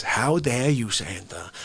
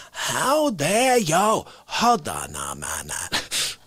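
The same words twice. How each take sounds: First: Low, indignant mock rant at Santa; mock outrage. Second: Slow, drawn-out mock indignation; milk the fake offence slowly; hammed-up outrage. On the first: Outraged at Santa over a present, mock indignant. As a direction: pretend to be scandalised by a gift. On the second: Ranting at Santa over a present, slow hammed-up outrage.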